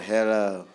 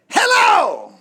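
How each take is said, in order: First: It is said flatly and gloomily. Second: It is said cheerfully and brightly.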